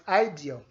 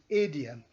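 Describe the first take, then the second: First: The word is said the common local way. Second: The word is said the standard way. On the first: The speaker calls it wrong. "The word is not idiom" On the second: The speaker calls it right. "it is idiom"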